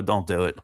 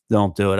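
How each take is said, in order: First: Said in the usual way. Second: Louder warning. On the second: Real, not acted.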